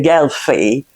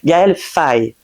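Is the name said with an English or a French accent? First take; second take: English; French. First: The name is said with an English accent. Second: The name is said with a French accent. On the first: The speaker calls it wrong. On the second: The speaker calls it right.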